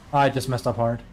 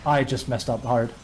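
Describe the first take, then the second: No difference in how they are said.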